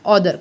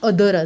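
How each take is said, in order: First: The first vowel is an open 'aw' sound. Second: The first vowel is a short 'uh' sound. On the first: The speaker calls it wrong. "खूप जण लोक हे ऑदर म्हणतात" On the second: The speaker calls it right. "ऑदर नाही तर ते अदर असतं"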